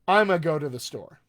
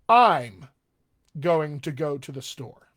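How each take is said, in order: First: Words are maximally reduced and blended together. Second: Words are slightly contracted, with mild reduction. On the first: "A little more" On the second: "drift it over a little more informal"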